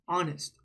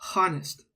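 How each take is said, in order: First: The word begins directly with a vowel sound. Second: The word begins with a pronounced H sound. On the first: The speaker calls it right. "We don't say the H sound" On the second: The speaker calls it wrong. "It's not honest. That's not how you say it"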